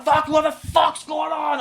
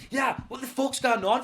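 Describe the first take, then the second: First: High, very loud, slow yell; shouted bravado. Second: High, raised challenge; mock bravado. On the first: Retold or imitated. Driver trying to be brave, escalating into a yell. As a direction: blow it up into an over-bold shout. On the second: Driver trying to be brave with his hijacker, mock bold. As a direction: put on bravery while scared. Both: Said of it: "I'm gonna be brave".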